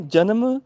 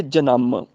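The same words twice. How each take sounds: First: ਜਨਮ said "ja-nam", short second syllable; without tippi. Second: ਜਨਮ said "ja-namm", lower with held ending; with tippi. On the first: Teacher repeats the contrast, ਜਨਮ as short "janam". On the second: Teacher repeats the contrast, ਜਨਮ as long "janamm". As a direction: draw out the m of ਜਨਮ. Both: Shown as a demonstration. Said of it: "ਇਹ ਫਰਕ ਹੈਗਾ".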